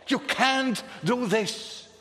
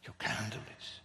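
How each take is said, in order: First: You can't do this, loud, higher and slow, each word pressed; outraged protest. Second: You can't do this, whispered, much lower and softer; whispered echo. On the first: Preacher protesting to the raging nations, loud and slow. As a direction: thunder it as a protest from the pulpit. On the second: Preacher echoing his protest to the congregation, whispered. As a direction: let it fall to a hushed whisper. Same words repeated as whisper. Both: Acted.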